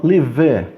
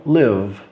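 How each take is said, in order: First: "live" wrongly as two syllables, li-vê; E final pronunciado. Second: "live" as one syllable ending on a held V; E final mudo. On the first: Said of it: "Eu não falo live". ("live" com E final, li-vê) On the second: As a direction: end "live" on the V, no vowel. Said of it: "ele é mudo". ("live" sem E, terminando no V) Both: Shown as a demonstration.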